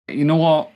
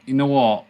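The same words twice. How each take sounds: First: Louder and higher, fed-up snap; exasperated outburst. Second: Loud, still higher, already settling; resigned exasperation. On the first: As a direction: throw up your hands, loud and higher. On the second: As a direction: say it again, loud but giving in. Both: Real, not acted. Exasperated player gives up.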